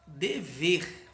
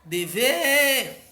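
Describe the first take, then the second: First: Said in the usual way. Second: De-VEEER, alto e agudo; última sílaba forte. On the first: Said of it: "a última sílaba é a mais forte". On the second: Shown as a demonstration. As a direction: chame Dever esticando o VER. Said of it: "pronuncia com mais força". (Dever com VER forte e demorado)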